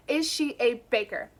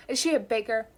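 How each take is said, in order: First: "Is" stressed, flat falling end on "baker"; calm, businesslike repeat of the question; matter-of-fact question. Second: Said in the usual way. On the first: Acted. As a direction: ask "Is she a baker?" as if it were perfectly reasonable. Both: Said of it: "I say like it's a perfectly reasonable first question".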